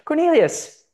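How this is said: It is said in a high-pitched voice.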